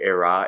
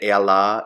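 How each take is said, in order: First: The middle consonant is an R sound. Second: The middle consonant is an L sound. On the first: The speaker calls it wrong. "you'll hear era" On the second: The speaker calls it right. "to say ela"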